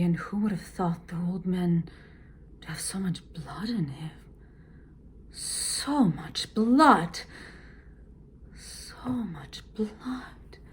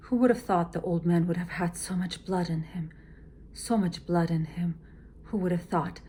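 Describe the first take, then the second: First: Change the feeling on each repeat; varied repetitions. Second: Said in the usual way. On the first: Shown as a demonstration. Teacher shows repeats each with a new feeling. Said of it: "it must reflect a different emotion". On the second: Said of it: "Now you can't say".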